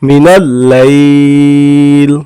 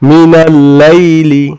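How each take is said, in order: First: The phrase ends on the consonant 'l'. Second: The phrase ends with a short 'i' vowel. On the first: The reader stops at this word. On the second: The reading continues past this word.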